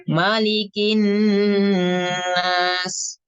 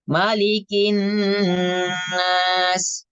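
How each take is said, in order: Both takes have the same delivery.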